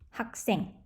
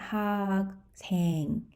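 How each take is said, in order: First: The second syllable starts with a tense consonant. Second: The second syllable starts with a plain consonant. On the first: The speaker calls it right. "It's actually pronounced as" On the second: The speaker calls it wrong.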